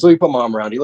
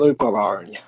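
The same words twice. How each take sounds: First: Said in the usual way. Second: "Let me put my arm around you" softer and lower, creepy-friendly; soft menace. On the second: Acted. Mock-friendly gesture to partner.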